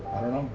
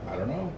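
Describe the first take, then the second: No difference in how they are said.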